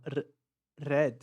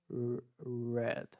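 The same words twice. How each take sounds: First: RED with a trilled R, tongue on palate; R com língua tremendo. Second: RED with a held English R, unhurried; R igual ao porta. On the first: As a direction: roll the R in RED. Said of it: "minha língua treme no céu da boca". (RED com R vibrado no céu da boca) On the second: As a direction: lengthen the R before RED. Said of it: "Tenta fazer o mesmo R". (RED com o R de porta) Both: Shown as a demonstration.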